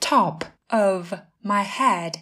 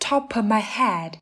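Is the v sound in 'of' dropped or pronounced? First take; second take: pronounced; dropped. First: The v sound of 'of' is clearly pronounced. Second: The v sound of 'of' is dropped.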